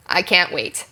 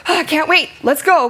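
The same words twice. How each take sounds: First: Said in the usual way. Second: High-pitched gasped eagerness; eager, urgent. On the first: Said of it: "And your line is". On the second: Shown as a demonstration. Character answering partner's urgent call to leave, eager. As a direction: jump at the chance to go. Acts matching reply to urgent line.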